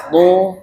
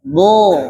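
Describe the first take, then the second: First: "do" said with the lips rounding forward; "do" with pouted, moving lips; rounded-lip do. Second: "Do" with the lips left still and neutral; "Do" shaped by the tongue edge, lips relaxed. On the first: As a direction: push the lips out on "do", the wrong way. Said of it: "makanya do-nya jangan do". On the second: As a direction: say "Do" without moving the lips. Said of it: "tapi bibir biasa aja". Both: Shown as a demonstration.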